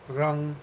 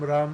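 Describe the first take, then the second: First: The word ends with a back-of-mouth ng sound. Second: The word ends with a closed-lips m sound. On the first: The speaker calls it right. "is actually pronounced" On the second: The speaker calls it wrong. "that M at the end"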